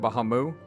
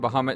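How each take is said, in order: First: The word ends without a t sound. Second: The word ends with a t sound. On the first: This is how some other people say the name. "instead of Bahamu" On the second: This is how the speaker says the name. "I say Bahamut"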